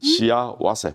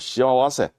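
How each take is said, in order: First: The word is pronounced carefully and more clearly. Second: The word is pronounced awkwardly and unclearly.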